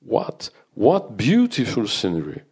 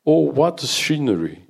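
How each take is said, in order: First: Trips on the first "What" then gushes on; a hint of an overcome teacher stammering; stumbling with emotion. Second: Slow, higher, piercing cry of delight; strident English teacher. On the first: Teacher overcome by the view, stumbling on first syllable. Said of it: "Elle en a trébuché d'émotion. Sur la première syllabe". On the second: Acted. French teacher gushing to colleagues over the park, strident. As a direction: gush over the view in a shrill voice.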